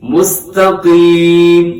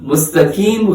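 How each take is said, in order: First: The q sound is heavy and full. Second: The q sound is light and thin. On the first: The speaker calls it right. "कौफ मोटा करके पढ़ना है" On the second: The speaker calls it wrong. "मुस्तकीम गलत है"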